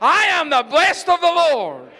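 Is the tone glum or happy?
happy. It is said in a happy, smiling way.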